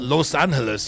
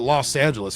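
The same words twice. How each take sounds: First: The name is said with Spanish-style pronunciation. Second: The name is said with English-style pronunciation. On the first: This is how the name is supposed to be said. The speaker calls it right. "We don't call it Los Angeles here" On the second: This is how locals actually say the name. The speaker calls it wrong. "We call it Los Angeles. We know it's wrong"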